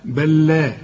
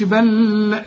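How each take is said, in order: First: بل لا as one clean doubled lam, "bal-laa"; merge without ghunna. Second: بل لا with the doubled lam held too long; wrong nasalized merge. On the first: Teacher gives the corrected reading, clean merged lam. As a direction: merge the lams in بل لا without humming. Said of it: "ما تغنش". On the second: Teacher warns against ghunna, over-held lam. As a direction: hum on the lam of بل لا as a mistake. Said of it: "ما تقولش بل لا". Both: Shown as a demonstration.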